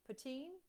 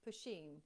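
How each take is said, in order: First: "Poutine?" tried out as a rising question, unsure of the sound; tentative guess at the word "Poutine?"; unsure pronunciation. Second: "Poutine." said lower with a falling, decided finish; committing to "Poutine." as final; settling on pronunciation. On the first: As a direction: test the word "Poutine?" with a questioning lift at the end. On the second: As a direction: land the word "Poutine." with a firm drop. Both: Shown as a demonstration. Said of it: "I'm gonna pronounce this wrong".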